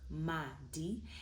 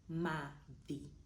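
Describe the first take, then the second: First: The d is hard, tongue behind teeth. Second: The d is soft, tongue between teeth. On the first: "If you didn't have a copy underneath the D, it would be madi" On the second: "because we have a copy underneath, it's madi"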